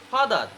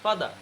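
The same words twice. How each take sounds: First: ফাদার with the R at the end pronounced; final R sounded. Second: ফাদার ending in an open "aa", no R; silent final R. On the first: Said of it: "লাস্টে চলে আসে". (ফাদার, শেষের র উচ্চারণ করে) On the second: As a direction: say ফাদার as "fada". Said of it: "কি হবে?". (ফাদার, র ছাড়া ফাদা) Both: Shown as a demonstration.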